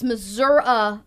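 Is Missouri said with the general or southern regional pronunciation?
southern. It has the southern pronunciation heard near Arkansas. The speaker is from the southern part of the state. "It's Missouri when you're too close to Arkansas"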